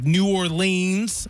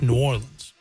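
First: The name is pronounced in an outsider's way. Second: The name is pronounced in the local way. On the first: The speaker doesn't know the place. The speaker calls it wrong. "I said it like someone who doesn't know" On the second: The speaker knows the place. The speaker calls it right. "It's New Orleans"

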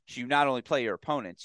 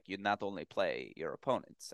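First: It is spoken in the speaker's normal accent. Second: It is spoken in a put-on foreign accent.

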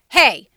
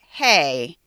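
First: It sounds alarmed and tense. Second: It sounds stern and disapproving. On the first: The speaker feels threatened or angry. "if I was worried or scared or you were coming too close to me or I was angry" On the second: The speaker objects to what someone is doing. "if you were doing something I didn't like"

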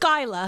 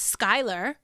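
First: The final r sound is dropped. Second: The final r sound is pronounced. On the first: "everyone from New York says Skyla" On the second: "I have a child whose name is Skylar"

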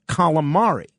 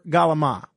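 First: It starts with k and ends in a full vowel. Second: It starts with g and ends clipped without vowel. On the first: The speaker sounds a little pretentious. "The English way to pronounce it is calamari" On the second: The speaker sounds like an ordinary local. "that's how everybody pronounced it"

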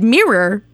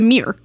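First: The word mirror has its usual pronunciation. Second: The word mirror has an altered pronunciation. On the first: The speaker calls it right. "even when Teresa says, yes, the haunted mirror" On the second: The speaker calls it wrong. "mispronounce the word mirror about 4,000 times"

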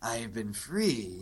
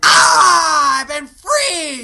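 First: It is said quietly and darkly. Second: It is said loudly and theatrically.

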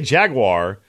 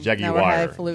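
First: It is said with an American pronunciation. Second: It is said with a British pronunciation. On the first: "but I say Jaguar" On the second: "If you're going to go phonetically proper, and we're going across the pond"

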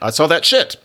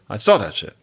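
First: The word 'shit' carries strong stress. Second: The word 'shit' is left unstressed. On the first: A pile of feces is meant literally. The speaker calls it wrong. "you don't say" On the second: That shit simply means that thing. The speaker calls it right. "You say"

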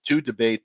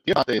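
First: The name is said with an Americanized pronunciation. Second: The name is said with an Italian pronunciation. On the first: "My relatives, a few years removed, Americanized it years ago" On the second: "Diabate is actually the Italian pronunciation"

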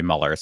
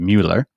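First: The name is said with English vowel sounds. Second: The name is said with German vowel sounds. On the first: "I think that's how most Americans say it" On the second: "If you're in Germany, his name would be Mueller"

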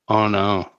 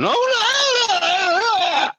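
First: It is said calmly and flatly. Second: It is said in a panicked way.

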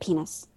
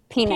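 First: The word is said at the lowest volume. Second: The word is said at a louder volume.

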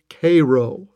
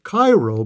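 First: It is pronounced the local Illinois way. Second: It is pronounced like the Egyptian city. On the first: The speaker calls it right. "the locals and Civil War buffs know it is Cairo" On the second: The speaker calls it wrong. "would pronounce it Cairo because it is spelled C-A-I-R-O like Cairo, Egypt"

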